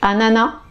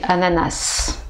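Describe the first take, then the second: First: The word ends without an S sound. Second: The word ends with an audible S sound. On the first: "la première façon" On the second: "On prononce le S"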